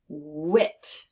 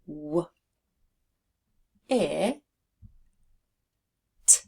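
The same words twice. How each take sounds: First: Said in the usual way. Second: W, I, T said as separate sounds with long pauses; sounding out. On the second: Shown as a demonstration. Teacher building wit for learners, sounded out sound by sound. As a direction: sound out W, I, T one sound at a time. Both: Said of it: "We are going to make the word wit".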